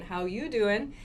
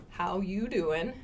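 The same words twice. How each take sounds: First: "How you doing" rising on you; Friends pickup line. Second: "How you doing" slow, rising on you; Friends pickup line. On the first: Teacher imitating the line again. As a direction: lean into you, smooth. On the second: Teacher imitating the Friends pickup line. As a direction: lean on you, flirty. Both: Retold or imitated. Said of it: "in that intonation".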